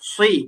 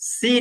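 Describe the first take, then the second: First: The s is heavy with rounded lips. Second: The s is light with spread lips. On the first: The speaker calls it right. "সদের ক্ষেত্রে আমাদের মুখ কি রাখতে হবে? গোল রাখতে হবে।" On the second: The speaker calls it wrong. "সি বললে কিন্তু সিন হয়ে যাবে।"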